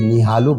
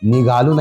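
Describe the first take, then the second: First: The middle consonant is an h sound. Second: The middle consonant is a g sound. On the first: This is the form that dialect uses. "बल्कि निहालू बोलते हैं" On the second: This is not the form that dialect uses. "निगालू नहीं"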